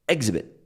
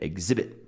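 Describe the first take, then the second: First: The stress is on the first syllable. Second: The stress is on the second syllable. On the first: The speaker calls it wrong. "she stressed the first syllable" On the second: The speaker calls it right. "where is the stress? It's exhib exhibit, right?"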